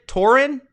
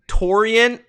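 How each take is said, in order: First: Torin in two syllables, TOR-in; pronunciation guess. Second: Torian in three syllables, TOR-ee-un; pronunciation guess. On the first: Streamer asking how a name goes, pronunciation guess. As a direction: try Torin with no 'ee' in the middle. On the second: Streamer sounding out a viewer's name, pronunciation guess. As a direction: try Torian with an extra 'ee' before the end. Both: Shown as a demonstration. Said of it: "Is your name pronounced".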